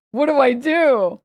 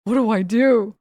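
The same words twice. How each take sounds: First: Louder, drawn-out frightened plea; a scared child frozen over spilled milk; mock panic, slowed and raised; panicked kid. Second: Said in the usual way. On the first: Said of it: "I was so stressed in that moment". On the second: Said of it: "I was like".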